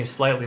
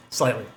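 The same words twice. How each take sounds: First: Said in the usual way. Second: Slightly. said alone as a firm falling word; a pointed one-word Slightly. with a falling close; stressed slightly. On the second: Shown as a demonstration. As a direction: land hard on Slightly. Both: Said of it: "I wanna emphasize that".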